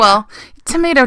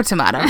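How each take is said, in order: First: Tomato said as to-MAY-to; tomato with a long ay sound. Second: Tomato said as to-MAH-to; tomato with an ah sound; tomato, broad a. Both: Shown as a demonstration. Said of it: "You know what I mean".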